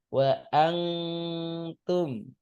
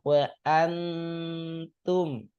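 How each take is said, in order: First: The n is held with a nasal hum. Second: The n passes straight into the t. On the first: The speaker calls it wrong. "jangan sampai" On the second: The speaker calls it right. "Kalau ini langsung ke ta-nya"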